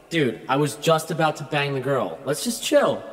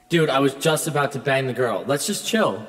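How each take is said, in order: Both takes have the same delivery.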